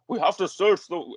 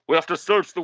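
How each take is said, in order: First: It is said in the speaker's ordinary voice. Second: It is said in a put-on character voice.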